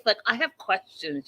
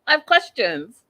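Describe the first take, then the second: First: Said in the usual way. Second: Exasperated louder restatement; louder emphatic repeat. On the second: Real, not acted. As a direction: punch it out louder. Repeats line louder second time.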